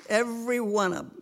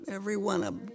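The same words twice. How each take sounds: First: EVERY stressed with a falling close; emphatic. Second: Every one of 'em repeated, quieter; softer echo. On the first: Grandmother insisting all her family will be saved, emphatic. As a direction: lean on every. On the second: Grandmother echoing her prayer for her family, softly. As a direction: let the repeat fall away softly. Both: Real, not acted. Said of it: "That's my prayer".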